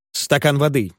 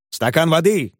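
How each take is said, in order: First: Said in the usual way. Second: Higher, furious mocking cry; enraged shout. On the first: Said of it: "попросил добрейший мистер Пиквик". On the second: A narrator's reading. Wardle mocks the request for water, furious cry. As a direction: throw the words back in a rage. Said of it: "вскричал взбешённый Уордль".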